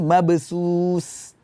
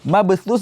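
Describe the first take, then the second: First: The final consonant is an 's' sound. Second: The final consonant is a 'th' sound. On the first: The speaker calls it wrong. "tertukar antara huruf tha dan huruf sin" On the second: The speaker calls it right. "ada huruf tha"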